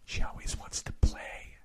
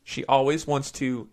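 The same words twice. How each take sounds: First: Whispered so the dog won't hear; hushed whisper, barely voiced. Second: Said in the usual way. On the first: Real, not acted. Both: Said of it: "So I have to whisper the word play".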